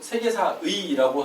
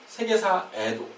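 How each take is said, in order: First: The final particle is pronounced as ui. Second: The final particle is pronounced as e. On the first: "관형격 조사 의가 의뿐만 아니라" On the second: "에로도 발음을 허용한다는 조항이 있습니다"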